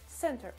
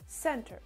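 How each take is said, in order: No difference in how they are said.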